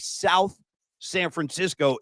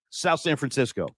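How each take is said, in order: First: Separate words, with the th sound in South. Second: Run together as one word, with no th sound. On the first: The speaker calls it wrong. "don't say South San Francisco" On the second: The speaker calls it right. "It's one word, and don't pronounce a T H. ... That's how I was told to say it"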